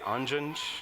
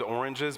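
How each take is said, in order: First: The word is said in a clipped childlike form. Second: The word is said in its standard full form. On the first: "he would always say anjans" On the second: "he loved oranges"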